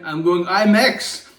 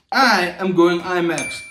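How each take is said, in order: First: Slow, loud, rising on imax; slow excited buildup to imax; hyped rise. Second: AM punched, slow and loud; slow emphatic I AM going imax; stress on AM. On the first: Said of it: "first take, rising". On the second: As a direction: lean hard on the word am. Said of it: "repeats with stress on am". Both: Pretend.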